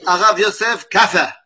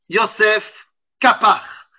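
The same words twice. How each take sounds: First: "Arav Yosef Kapar" as a Yemenite would say it, with "Arav" run onto the name; "Arav Yosef Kapar" the Yemenite way, not the French one; Yemenite pronunciation. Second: "Yosef Kapar" with French vowels and a French uvular r, stress on the last syllable, said slowly; "Yosef Kapar" in plain French pronunciation, each syllable even; French-accented name. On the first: Teacher showing how a Yemenite says the name, Yemenite pronunciation. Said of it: "un bon yéménite me dirait".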